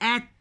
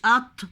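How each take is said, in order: First: The t sound is thin and light. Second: The t sound is heavy and emphatic. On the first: The speaker calls it right. "تاء مرققة" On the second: The speaker calls it wrong. "مش أط"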